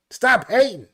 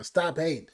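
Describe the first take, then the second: First: Higher, louder hype shout of the lyric; loud repeat. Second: Said in the usual way. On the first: Retold or imitated. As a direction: belt it out like the hook.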